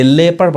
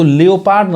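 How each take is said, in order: First: लेपर्ड with silent O; correct pronunciation. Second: लियोपार्ड with the O sounded; wrong pronunciation. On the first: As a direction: say लेपर्ड in two syllables. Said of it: "यहाँ पे ओ silent है". (लेपर्ड, ओ को खामोश रखकर) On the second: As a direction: say लियोपार्ड in three syllables, with a clear O. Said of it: "इसको लियोपार्ड नहीं पढ़ाएगा". (लियोपार्ड, ओ बोलकर) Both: Shown as a demonstration.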